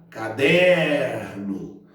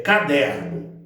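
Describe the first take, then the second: First: Caderno called out with a long, drawn-out DER; chamando a word. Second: Said in the usual way. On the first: Shown as a demonstration. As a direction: stretch the middle syllable of caderno as if calling it. (caderno chamado, alongando bem o DER) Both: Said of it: "vou chamar a palavra".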